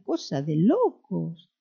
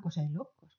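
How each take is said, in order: First: Slow, stretched Argentine lilt on "locos"; playful mock-Argentine accent. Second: Said in the usual way. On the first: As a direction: imitate an Argentine, dragging out "locos". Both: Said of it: "como dicen los argentinos".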